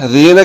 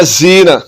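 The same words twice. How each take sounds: First: ज़ीना opening on 'th' as in 'this'; no whistle at the start of ज़ीना; soft zaal. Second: जीना with a buzzing 'z', zeena; wrong whistling z. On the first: Teacher contrasting two letters, soft zaal. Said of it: "ये ज़ाल है". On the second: Teacher showing learners the mistake, whistling z. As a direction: hiss the z in जीना. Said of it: "अब ये जा पढ़ा जा रहा है". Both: Shown as a demonstration.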